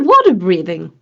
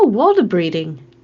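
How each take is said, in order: First: The second word has a TH sound. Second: The second word has a D sound. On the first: The speaker calls it right. "Now you said it properly" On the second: The speaker calls it wrong. "That's not a T H. That's a D"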